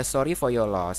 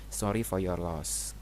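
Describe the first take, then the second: First: Said in the usual way. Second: Gentle condolence. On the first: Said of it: "Kemudian ada". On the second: Shown as a demonstration. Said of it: "misalnya di rumah duka ya".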